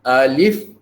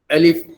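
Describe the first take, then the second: First: The first vowel is drawn out long. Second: The first vowel is said short and quick. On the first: The speaker calls it wrong. "Jangan dibaca alif ha, panjang" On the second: The speaker calls it right. "Alif tu dicepatkan sebutannya"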